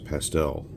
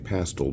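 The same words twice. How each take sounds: First: It is said in a regional American pronunciation. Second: It is said in a non-American pronunciation. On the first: This is how people in the speaker's area say it. "in my area of the U S we use pastel" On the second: This is how people in other countries say it. "people in other countries say pastel"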